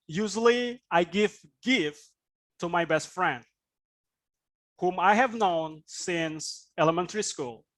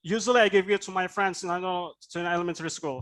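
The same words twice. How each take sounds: First: "gift" stressed, pauses after "gift" and "friend"; unhurried phrases, focus on "gift", pause before "whom"; phrased with stress. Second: Rushed straight through from "Usually" to "school", no pauses; no intonation. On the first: Teacher modelling sentence stress, pausing between "gift", "friend", "whom". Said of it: "Stress means what is the, the focus". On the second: Teacher showing what to avoid, "Usually" to "school" rattled off unstressed. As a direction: run "Usually" to "school" fast, nothing stressed. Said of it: "there's no intonation there".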